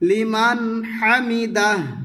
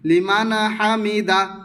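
First: The n of liman has no vowel after it. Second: The n of liman carries an added a vowel. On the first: The speaker calls it right. "লিমান নুন সাকিনটি লড়বে না" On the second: The speaker calls it wrong. "অনেকে বলে ফেলে লিমান লিমান হামিদা, নুন সাকিন লড়ে গেলে সাকিন উচ্চারণ হয় না, বরঞ্চ জবর হয়ে যায়"

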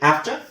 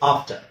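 First: It is said with an American English accent. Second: It is said with a British English accent. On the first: "American English ಅಲ್ಲಿ ಅದು ಆಫ್ಟರ್" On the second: "British English ಅಲ್ಲಿ ಆಫ್ಟರ್"

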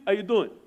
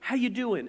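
First: It is said casually in a New York accent. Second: It is said sincerely, without a New York accent.

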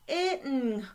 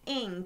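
First: The ending is said with an extra 't'-like sound, as 'itng'. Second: The ending is said smoothly as one sound, 'ing'. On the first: The speaker calls it wrong. "we don't say itng" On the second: The speaker calls it right. "No, the sound is ing"

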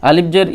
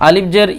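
Both takes have the same delivery.

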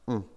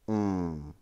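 First: The nasal vowel is held for a normal length. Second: The nasal vowel is held extra long. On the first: "The nasalized O is pronounced un" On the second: "Sometimes you can find an overlong version"

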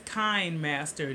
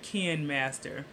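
First: The first syllable rhymes with 'mine'. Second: The first syllable rhymes with 'men'. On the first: The speaker calls it right. "It's Kind Master" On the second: The speaker calls it wrong. "not Ken Master"

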